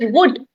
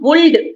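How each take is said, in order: First: The L sound is silent in the word. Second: The L sound is pronounced in the word. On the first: The speaker calls it right. "It is wood. L is silent here" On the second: The speaker calls it wrong. "is not wold"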